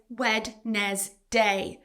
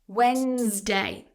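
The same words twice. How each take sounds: First: The D is sounded, with an extra syllable. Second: The D is silent, with two syllables. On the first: The speaker calls it wrong. "A common mispronunciation here is Wednesday. So you're pronouncing letters that should be silent and adding an extra syllable" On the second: The speaker calls it right. "this word is just two syllables and the D is silent"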